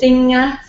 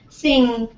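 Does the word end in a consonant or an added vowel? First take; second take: vowel; consonant. First: The word ends with an added vowel sound. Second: The word ends on the nasal consonant.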